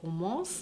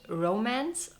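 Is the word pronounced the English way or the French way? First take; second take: French; English. First: The word is pronounced the French way. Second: The word is pronounced the English way. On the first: "or a French way" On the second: "in an English"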